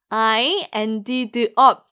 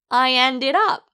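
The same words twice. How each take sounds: First: The words ended and up are said separately. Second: The words ended and up are linked together. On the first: The speaker calls it wrong. "아니에요" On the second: The speaker calls it right. "ended와 up을 연결해서 발음하실 때"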